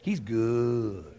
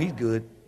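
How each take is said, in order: First: The voice sounds excited and full of energy. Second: The voice sounds flat and without any energy. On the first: The speaker truly believes and celebrates it. The speaker calls it right. "No, you didn't say it like that. Say" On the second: The speaker says it without feeling it. The speaker calls it wrong. "people say, oh, He's good. And don't even smile when they say it"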